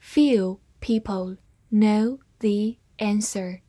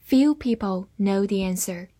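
First: Slow, careful reading of "Few people know the answer"; slowed-down model sentence. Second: Said in the usual way. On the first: Shown as a demonstration. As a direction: read it slowly and savour it. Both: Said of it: "我们慢读来仔细体会一下".

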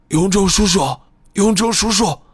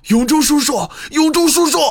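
First: Fading, hoarse cry, higher; calling out with a voice already gone. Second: Desperate scream, much higher and louder; heart-rending scream. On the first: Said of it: "木武的声音变得越来越轻微，也越来越嘶哑". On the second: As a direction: scream his name with everything you have. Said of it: "木武撕心裂肺地叫喊起来". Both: A narrator's reading.

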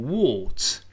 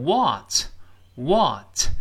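First: British "what" with a rounded, closer vowel; drawn-out British "what"; British pronunciation. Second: American "what" with a wide-open "ah" vowel; very slow, open American "what"; American pronunciation. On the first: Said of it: "英式发音读成what". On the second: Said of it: "美音中口型大一些". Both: Shown as a demonstration.

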